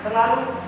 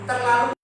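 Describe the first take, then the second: The two takes are said the same way.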